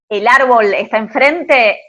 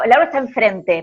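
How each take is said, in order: First: The pitch rises at the end. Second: The pitch falls at the end. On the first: The speaker calls it wrong. "cuando decís" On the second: The speaker calls it right. "para abajo"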